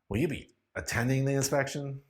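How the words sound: The question sounds irritated and annoyed. "using an irritated voice"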